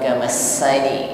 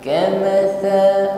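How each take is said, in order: First: The consonant is a hissing s sound. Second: The consonant is a soft, non-hissing th. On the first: The speaker calls it wrong. "namun tidak berdesis, bukan kamasani" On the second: The speaker calls it right. "huruf ta titik tiga ya, ini bukan shin"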